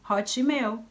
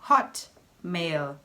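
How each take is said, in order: First: It is said with a Brazilian Portuguese accent. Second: It is said with an English pronunciation. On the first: The speaker calls it wrong. "fala Hotmail" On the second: The speaker calls it right. "em inglês é só Hotmail"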